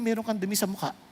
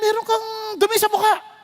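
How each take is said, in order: First: It is said in a gentle, kind tone. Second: It is said in a harsh, scolding tone.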